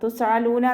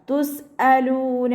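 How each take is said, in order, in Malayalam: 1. ഇത് തൊണ്ടയുടെ ആഴത്തിലുള്ള ശബ്ദമാണ്. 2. ഇത് വ്യക്തമായ ഗ്ലോട്ടൽ സ്റ്റോപ്പാണ്. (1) "ഹംസയുടെ സൗണ്ട് അയിനായി പോവാതെ നോക്കുക. തുസ് അലൂന എന്നായി പോവരുത്" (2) "സൗണ്ടിന് വ്യക്തമായിട്ട് കൊടുക്കുക"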